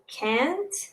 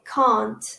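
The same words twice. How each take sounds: First: It is said in an American accent. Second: It is said in a British accent. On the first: "In American, they say" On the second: "in British English, I say"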